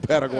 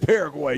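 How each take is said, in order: First: The R is rolled, the Spanish way. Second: The R is plain, without a roll. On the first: It is the Spanish way of saying the name. "You didn't say no Paraguay" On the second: It is the English way of saying the name. "You didn't roll no R. You said Paraguay"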